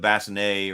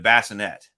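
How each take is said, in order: First: It is pronounced the French way. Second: It is pronounced the English way. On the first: "instead of" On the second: "they always said"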